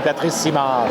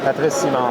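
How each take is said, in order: First: The name is said with a French accent. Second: The name is said with an English accent.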